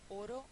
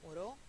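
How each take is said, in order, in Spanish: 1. El acento está en la primera sílaba. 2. El acento está en la última sílaba. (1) "es llana"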